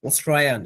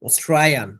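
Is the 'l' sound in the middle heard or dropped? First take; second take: dropped; dropped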